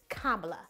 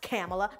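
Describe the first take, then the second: First: The name starts like 'comma', then 'la'. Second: The name does not start like 'comma'. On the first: The speaker calls it right. "It's comma, like the punctuation mark, and la" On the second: The speaker calls it wrong. "Not Kamala"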